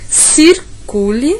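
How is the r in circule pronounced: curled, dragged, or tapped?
tapped. The r is a quick tap of the tongue. "aquela passada rápida, como na, na capital paulista"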